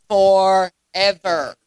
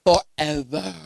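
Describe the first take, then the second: First: Forever stretched very slow and held; slow solemn "forever"; drawn-out forever. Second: "Forever" dropped low with a questioning lift; low rising "Forever"; low prompting forever. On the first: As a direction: linger on "forever" as if it never ends. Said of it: "How did he say it?". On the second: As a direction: coax the answer "Forever" from the crowd. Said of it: "it shall be blessed for what?". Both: Shown as a demonstration.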